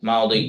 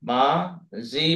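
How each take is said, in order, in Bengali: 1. শেষ স্বরের আগের ব্যঞ্জনটি d-এর মতো উচ্চারিত হয়। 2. শেষ স্বরের আগের ব্যঞ্জনটি j-এর মতো উচ্চারিত হয়।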